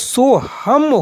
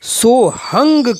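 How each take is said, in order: First: The word ends with an m sound. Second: The word ends with an ng sound. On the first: Grammar scholars pronounce it this way. "इसका जो उच्चारण होता है वो सोहम होता है" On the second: Old saint traditions pronounce it this way. "वहां सोहंग शब्द का उच्चारण सोहंग किया जाता है"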